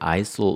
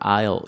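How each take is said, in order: First: The word is said with an s sound. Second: The word is said with no s sound. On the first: The speaker calls it wrong. "aisle 이렇게 읽으면은 참 웃깁니다" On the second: The speaker calls it right. "이걸 aisle 이렇게 읽어야지"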